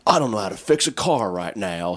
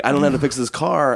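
First: A put-on voice, lightly shifted from his own; voicing his helpless inner macho self; changed voice. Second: Higher, louder and faster put-on voice; hammed-up helpless guy at the roadside; changed voice, pushed further. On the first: Guy stuck by a flat tire, lightly put-on voice. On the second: Guy with a flat tire, hammed-up higher louder voice. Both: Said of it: "I don't know why I changed my voice there".

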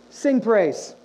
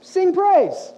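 First: Said in the usual way. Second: Emphatic call. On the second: Shown as a demonstration. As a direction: Sing praise called out higher and louder.

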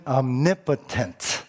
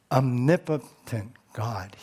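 First: "omnipotent" said slowly, each syllable spaced out; slow emphasis. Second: Said in the usual way. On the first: Shown as a demonstration. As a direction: lay out "omnipotent" deliberately, syllable by syllable. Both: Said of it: "The word is omni".

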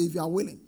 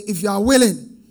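First: Said in the usual way. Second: Said louder. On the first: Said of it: "Somebody say". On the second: Real, not acted. Preacher asking the church to say it louder. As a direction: repeat it louder for the room.

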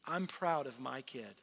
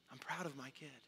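First: Said in the usual way. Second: Put-on much softer, tender repeat of proud of my kid; softer echo. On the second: God repeating his pride, softly to himself. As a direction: let it fall to a soft, near-private echo. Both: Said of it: "God declared it in front of others".

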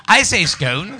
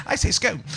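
First: "scone" said with a long o like "skohn", lightly posh; a hint of plummy English saying "scone" as "skohn". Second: Quieter posh echo, "scone" rhymed with "cone". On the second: Retold or imitated. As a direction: softly mimic a plummy "scone" said as "skohn". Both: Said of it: "the poshest voice in the world".

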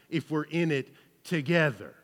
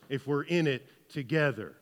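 No difference in how they are said.

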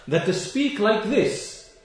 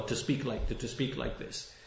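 First: To speak like this, drawn out slow and raised, SPEAK hit hard; emphatic slow. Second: To, to speak like this, dropped almost to a breath, no voice; near whisper. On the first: Preacher hammering his point to the congregation, slow and emphatic. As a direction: stretch every word, landing on speak. Preacher condemning the opponents' words. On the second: Preacher trailing off to his listeners, almost whispering. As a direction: let it fall away to a hush. Preacher repeating the condemnation softly. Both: Real, not acted.

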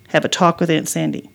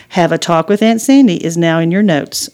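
First: Said in the usual way. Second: A lightly voiced phone assistant; the phone assistant repeating the note. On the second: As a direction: read the note back like a digital helper. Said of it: "Suri replied".

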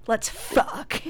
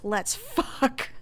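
First: Mock coked-out, breathy come-on. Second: Slightly raised, drawn-out brash proposition; lightly voiced coked-out late-night visitor; brash come-on. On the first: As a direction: lightly act a wired, brash visitor. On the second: Sean at the door at two in the morning, brash. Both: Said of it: "coked out".

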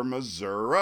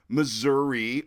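First: "Missouri" with a final uh sound; Missouri ending in "uh". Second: "Missouri" with a final ee sound; Missouri ending in "ee". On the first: History buff showing both state-name versions, uh-ending "Missouri". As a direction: say "Missouri" as muh-ZUR-uh. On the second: History buff showing both state-name versions, ee-ending "Missouri". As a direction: say "Missouri" as muh-ZUR-ee. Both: Shown as a demonstration. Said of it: "about how to pronounce the name".

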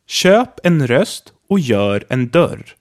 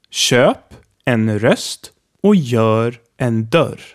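First: Köp en röst och gör en dörr, each ö distinct; slow, careful Swedish sentence; all four ö sounds. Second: Köp en röst och gör en dörr said even slower; slower repeat. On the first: Teacher reading example sentence slowly, vowels distinct. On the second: Teacher repeating the sentence extra slowly for practice. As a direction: drag each word out for learners. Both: Shown as a demonstration. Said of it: "a sentence here with all four sounds".

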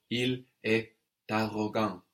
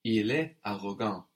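First: "il est arrogant" with T linking into "arrogant"; optional liaison. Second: Said in the usual way. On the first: Shown as a demonstration. Teacher offers the other option, "il est arrogant" with a linking T. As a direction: sound the T between "est" and "arrogant". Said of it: "with our optional but very common liaison". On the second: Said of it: "Or il est arrogant with our optional".

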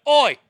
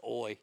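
First: A big barked Oi!, high and loud; shouted oi. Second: Said in the usual way. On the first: Shown as a demonstration. Showing the mic how he does his Oi, shouted. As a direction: bark it out like a Cockney geezer. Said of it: "I'm trying to do that more". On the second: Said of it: "I love the phrase".

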